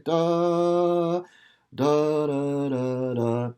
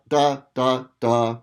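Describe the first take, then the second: First: Slow connected "da, da, da"; legato da. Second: Louder detached "da" syllables; wrong detached "da, da"; choppy da. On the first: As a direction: sing "da" smoothly joined, lightly tongued. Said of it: "Just lightly tongue the note". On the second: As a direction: punch each "da" separately, disconnected. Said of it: "You wouldn't wanna go". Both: Shown as a demonstration.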